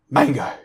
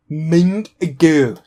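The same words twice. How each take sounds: First: Said in the usual way. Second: "Mango" stretched out long, higher and louder; drawn-out odd emphasis. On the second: Acted. Showing friends mango is a weird word, drawn-out "Mango". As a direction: draw out both syllables of "Mango", pushed up and loud.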